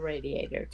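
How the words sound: It is said with an American pronunciation. "to us"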